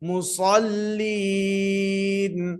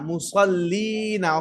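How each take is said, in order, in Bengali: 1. শব্দটি শেষ হয়েছে ব্যঞ্জনধ্বনি 'n' দিয়ে। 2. শব্দটি শেষ হয়েছে চূড়ান্ত 'a' স্বরধ্বনি দিয়ে।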